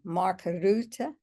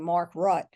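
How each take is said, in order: First: The name is said with a Dutch-like pronunciation. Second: The name is said with an English pronunciation. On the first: "it's two syllables" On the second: "We would say Mark Rutte probably"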